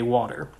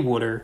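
First: It is said with a general American vowel. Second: It is said with a Philadelphia accent vowel. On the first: "The other Philly thing that I don't do is I say water" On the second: "when I can get real Philly and say water"

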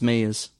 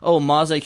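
First: The word is pronounced as the plain English word. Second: The word is pronounced with Japanese-style syllables. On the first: The speaker calls it right. "No, it's just Maze" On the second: The speaker calls it wrong. "I'm just so used to pronouncing Japanese shit"

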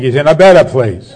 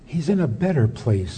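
First: It is said in a blunt, brusque tone. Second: It is said in a soft, gentle tone. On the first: It dismisses the complaining matter-of-factly. The speaker calls it right. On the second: It offers gentle consolation about the afterlife. The speaker calls it wrong.

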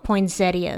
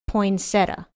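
First: The word is said with four syllables. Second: The word is said with three syllables. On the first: The speaker calls it wrong. "Poinsettia is wrong" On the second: The speaker calls it right. "the way you're supposed to say it is poinsettia"

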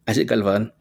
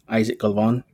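First: The name is said in a native accent. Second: The name is said in an anglicized accent.

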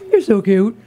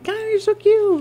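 First: It is said in a low, calm tone. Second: It is said in a high baby voice.

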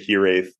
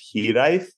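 First: The name is pronounced as English spelling suggests. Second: The name is pronounced with Welsh sounds. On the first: This is how the spelling suggests it sounds. "I normally say Hiraeth because that's how it phonetically looks" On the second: This is the original pronunciation. "it's a Welsh term that's technically pronounced"

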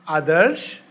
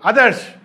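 First: The name is called in a gentle, pleasant tone. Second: The name is called in a harsh, scolding tone.

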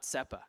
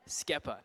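First: The word begins with a plain s sound. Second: The word begins with an sk sound. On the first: The speaker calls it wrong. "not Sepa" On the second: The speaker calls it right. "Skepa, not Sepa"

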